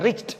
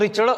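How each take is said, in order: First: The word ends with a t sound. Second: The word ends with a d sound. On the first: The speaker calls it right. "त्याचा ट उच्चार करा. ड नाही" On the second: The speaker calls it wrong. "रिचड जो आपण म्हणतो रिचड"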